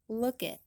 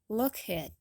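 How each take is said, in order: First: A soft K links into a schwa-reduced 'at'. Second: The K is fully released and 'at' is unreduced. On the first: The speaker calls it right. "it'll sound like" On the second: The speaker calls it wrong. "instead of pronouncing it like"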